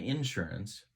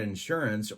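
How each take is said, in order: First: It is said the Central Illinois way. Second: It is said the standard way.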